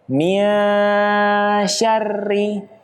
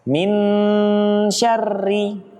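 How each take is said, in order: First: The n is hidden and blurred into sh. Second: The n is pronounced fully and clearly. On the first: The speaker calls it right. "Harusnya menggantung" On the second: The speaker calls it wrong. "Kalau tertempel dia menjadi jelas"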